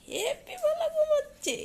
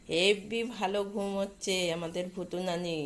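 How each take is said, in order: First: Much higher squeaky pet voice; voicing the dog. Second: Said in the usual way. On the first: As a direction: answer as the dog in a tiny cutesy voice. Answering for the sleepy dog. (কুকুরের হয়ে খুব উঁচু মিহি গলায় বলা)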